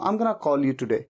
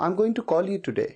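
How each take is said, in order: First: 'Going to' is reduced to one word, 'gonna'. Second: 'Going to' is said in full, two words.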